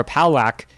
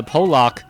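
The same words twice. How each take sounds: First: Palak said as PAL-ack; short flat A in both halves of "Palak"; alternate name pronunciation. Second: Polak said as POH-lock; alternate name pronunciation. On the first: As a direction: say "Palak" to rhyme with lack. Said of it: "version of the name you want to read". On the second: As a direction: round O opening in "Polak". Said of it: "depending on what version of the name". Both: Shown as a demonstration.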